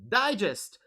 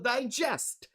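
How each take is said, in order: First: The stress is on the first syllable. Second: The stress is on the second syllable. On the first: It is a noun. "The first syllable is stressed" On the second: It is a verb. "The second syllable is stressed"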